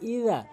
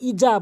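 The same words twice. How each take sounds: First: The final vowel is drawn out long. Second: The final vowel is short. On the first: The speaker calls it right. "সঠিক উচ্চারণ হচ্ছে ইজা" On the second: The speaker calls it wrong. "আমরা ইজা বলি, ভুল উচ্চারণ"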